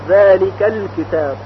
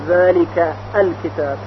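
First: The vowel at the start of the article is dropped. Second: The vowel at the start of the article is pronounced. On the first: The speaker calls it right. "همزه وصل حذف شد، البته در تلفظ" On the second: The speaker calls it wrong. "نمیگوییم ذالک الکتاب"

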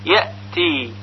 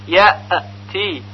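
First: The hamza ends with a clean, firm stop. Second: The hamza ends with a bouncing echo. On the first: The speaker calls it right. "پس صحیح اون این طور هست" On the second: The speaker calls it wrong. "یأتی غلط هست، چون همزه که ساکن هست قلقله پیدا کرده"

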